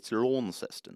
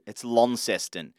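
First: It is said in a posh accent. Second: It is said in a plain Australian accent.

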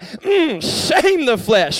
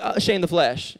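First: It is said with strong, soulful feeling. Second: It is said flatly, without feeling.

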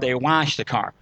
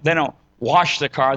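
First: It is said in a South Georgia accent. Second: It is said in a standard accent.

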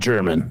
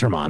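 First: It sounds like the English word German. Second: It is said Spanish-style, stressing the last syllable. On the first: The speaker calls it wrong. "it's not German" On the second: The speaker calls it right. "It's Germán"

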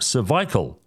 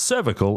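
First: The second-syllable vowel is a long eye sound. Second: The second-syllable vowel is a short i sound. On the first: The speaker calls it wrong. "and not cervical, as with two eyes" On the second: The speaker calls it right. "the word should be pronounced cervical"

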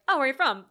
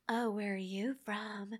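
First: It is said in a plain, casual tone. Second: It is said in a flirtatious, suggestive tone.

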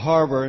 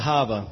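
First: The r sounds are pronounced. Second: The r sounds are dropped. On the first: The speaker calls it right. "it's a harbor" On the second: The speaker calls it wrong. "not a hava"

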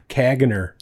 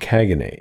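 First: The word ends with an r sound. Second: The word ends without an r sound. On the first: This is a reading based on the spelling. "I would call it like Caganer" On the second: This is how people who use the term say it. "I think that's how you pronounce it"

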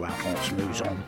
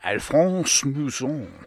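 First: The name is said plainly, without added flair. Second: The name is said with extra flair and flourish. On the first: "I'll just stick to" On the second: "try and pronounce that name with a little bit more flair"

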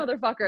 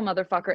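First: It is said in a celebratory tone. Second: It is said in an emotional tone.

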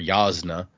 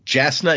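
First: The name begins with a Y sound. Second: The name begins with a J sound. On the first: The speaker calls it right. "It's Yasna" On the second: The speaker calls it wrong. "Jasna is how I said it when I first read it. That is not in fact correct"

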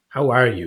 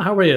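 First: It is asked sincerely, really wanting to know. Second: It is asked casually, as a throwaway greeting.

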